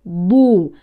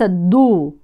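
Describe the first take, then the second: First: The consonant is a heavy emphatic dad. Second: The consonant is a plain light d. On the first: The speaker calls it right. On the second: The speaker calls it wrong.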